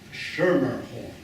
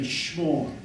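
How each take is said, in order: First: The name is said with three full syllables. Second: The name is slurred into one syllable. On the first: This is how the family itself said the name. "The family pronounced the name Schermerhorn" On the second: This is how nineteenth-century upper-class New Yorkers would have said it. "they would have pronounced it as one syllable"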